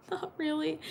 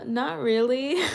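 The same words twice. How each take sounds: First: Higher, softer, through a laugh; laughing, softer "Not really"; laughing repeat. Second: Said in the usual way. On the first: Real, not acted.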